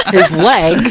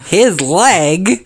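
First: Laughing, mocking. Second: Laughing. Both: Real, not acted. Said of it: "we were starting recording".

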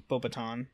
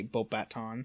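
First: Beauxbaton said "boh-buh-TAHN"; second variant. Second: Beauxbaton said "bohp-BAT-ahn"; first variant. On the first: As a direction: say Beauxbaton with a light "buh" in the middle. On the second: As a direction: say Beauxbaton with a clear "bat" in the middle. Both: Shown as a demonstration. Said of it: "I switch between the two".

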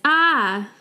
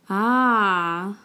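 First: A short alarmed ah as a call for help. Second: An open, settled ah as if it just clicked; ah of understanding. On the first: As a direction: cry ah like you need help. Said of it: "the translation is help". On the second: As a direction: say ah like you finally get it. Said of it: "as in I understand". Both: Shown as a demonstration.

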